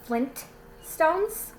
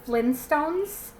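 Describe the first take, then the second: First: The t in the middle is clearly pronounced. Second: The t in the middle is dropped. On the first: This is how the name is actually spelled. "it's actually" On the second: This is how people casually say it. "we've all always said"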